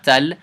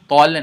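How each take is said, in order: First: The ta is pronounced light, with a brighter vowel. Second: The ta is pronounced heavy, with a darker vowel. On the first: The speaker calls it wrong. "not tal" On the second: The speaker calls it right. "Ta is heavy. So tol"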